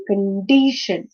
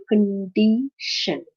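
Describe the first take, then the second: First: "condition" as one word, con-DI-tion; second-syllable stress. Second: "condition" slowly as con-di-tion; syllable by syllable. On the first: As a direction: lean on the middle syllable of "condition". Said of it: "stress is on the second syllable". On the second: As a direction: pause between the syllables of "condition". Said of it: "this is a three-syllabic word". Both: Shown as a demonstration.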